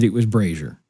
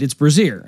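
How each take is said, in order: First: Brazier said as "BRAY-zher"; correct brazier. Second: Brazier said as "bruh-ZEER"; mispronounced brazier. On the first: Boss correcting him afterwards, brazier as "BRAY-zher". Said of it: "you knew that it was brazier". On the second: Retelling the boss's mistake, brazier mispronounced as "bruh-ZEER". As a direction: put the stress late, brazier as "bruh-ZEER". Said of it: "if they tell you that brazier is brazier". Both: Retold or imitated.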